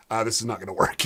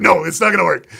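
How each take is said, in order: First: Said in the usual way. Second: Higher and much louder, a firm no; loud flat refusal. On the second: Retold or imitated. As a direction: shut the idea down loudly. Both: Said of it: "he's like".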